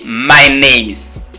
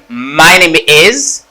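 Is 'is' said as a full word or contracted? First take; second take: contracted; full. First: The word is is contracted onto name. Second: The word is is said in full. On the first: "I say my names" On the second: "Instead of saying my name is"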